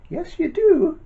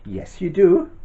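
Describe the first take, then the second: First: Squeaky high teasing pantomime call; high sing-song. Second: Put-on teasing the kids, bright and lively; a playful yes you do. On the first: Acted. Teasing the children, pitch jumps. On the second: Teasing the children.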